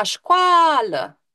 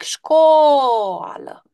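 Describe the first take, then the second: First: Școală with the A stretched long; teacher stretching the A in școală, voiced higher; drawn-out A. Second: Școală with the O stretched long and slow; teacher stretching the O in școală for the class; drawn-out O. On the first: Teacher shows pupils the word, A drawn out. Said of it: "Hai să-l lungim pe A". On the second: Teacher demonstrates to pupils, stretching the O long. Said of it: "lungind exagerat întâi pe O". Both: Shown as a demonstration.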